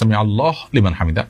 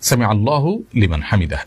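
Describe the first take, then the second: First: Allah ends with no vowel before liman. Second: Allah ends with a short u before liman. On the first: The speaker calls it wrong. "এটা সঠিক উচ্চারণ নয়" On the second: The speaker calls it right. "এভাবে বলতে হবে"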